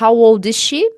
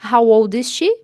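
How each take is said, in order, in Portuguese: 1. O som do s de is e she se junta em um só. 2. O som do s de is e she se junta em um só.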